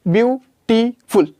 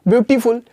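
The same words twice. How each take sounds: First: beautiful said slowly in three beats; slowed into syllables. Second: Said in the usual way. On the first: Shown as a demonstration. Teacher to class, beautiful broken into three slow beats. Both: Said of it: "इस तरीके से तीन बार में बोला जा रहा है".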